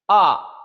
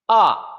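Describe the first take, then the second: First: The pitch falls sharply from high. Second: The pitch falls sharply from high.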